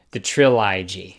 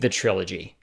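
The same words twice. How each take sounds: First: Trilogy said as "tril-EYE-jee"; trilogy oddly pronounced "trill-eye-jee", lower; deliberate mispronunciation. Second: Said in the usual way. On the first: Shown as a demonstration. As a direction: say trilogy with a long "eye" in the middle. Repeats word with odd pronunciation.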